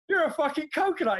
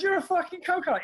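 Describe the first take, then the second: First: Said flat the first time; calmly calls him a coconut; retold insult. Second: Same insult said higher and harder; repeated insult, higher. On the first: Telling the barber, first time, level insult. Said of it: "I went". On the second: Retold or imitated. Repeating it to the barber, higher and pointed. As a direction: push it up in pitch the second time. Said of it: "I goes".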